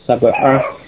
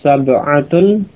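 First: The word ends without the case ending. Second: The word ends with the full case ending.

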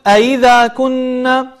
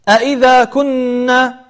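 First: One glottal stop is softened. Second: Both glottal stops are clearly pronounced. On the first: The speaker calls it wrong. "ولا تقول" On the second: The speaker calls it right. "تحقيق الهمزات"

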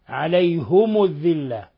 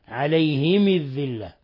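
First: Both the h and the m take u. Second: Both the h and the m take i. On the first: "بضم الهاء والميم فيهما" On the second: "بكسر الهاء والميم فيهما"

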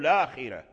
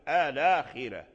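First: The word begins directly with an l sound. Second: The word begins with an a vowel before l. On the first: The vowel moved onto the l is treated as its own. "يلفظ باللام مباشرة" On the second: The l is treated as still silent, needing a helper vowel. "وإذا لم يعتد بالعارض كأن اللام ما زال ساكن"

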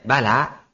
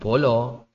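First: Both vowels are pronounced as an open 'a'. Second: Both vowels are pronounced as a rounded 'o'. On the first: This is how people from one region say it. The speaker calls it right. "Kalau misalnya itu orang Banjarnegara ya" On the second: This is how local people here say it. The speaker calls it wrong. "Kalau orang sini mungkin bolo"

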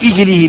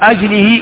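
First: The word begins with the vowel i. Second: The word begins with the vowel a. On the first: "وكسرها" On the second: "بفتح الهمزة"

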